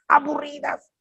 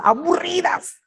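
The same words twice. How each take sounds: First: "aburridas" repeated much higher for emphasis; stressed aburridas. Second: Said in the usual way. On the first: Shown as a demonstration. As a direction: lean on "aburridas" the second time. (énfasis agudo en "aburridas")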